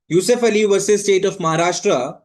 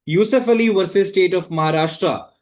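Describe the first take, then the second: No difference in how they are said.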